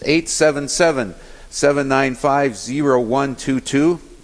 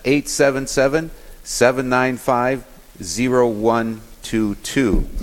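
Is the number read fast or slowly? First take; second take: fast; slowly. First: The number is read at normal speed. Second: The number is read slowly.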